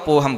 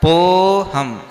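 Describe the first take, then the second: First: The vowel is not drawn out at all. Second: The vowel is drawn out slightly. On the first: No silent a-mark is written. "नहीं लिखा हो तो पोहम बोलेंगे सीधा" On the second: The silent a-mark is written once. "एक बार लिखा है तो पोहम"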